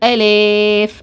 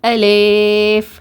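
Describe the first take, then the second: First: The middle vowel is bent toward e. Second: The same.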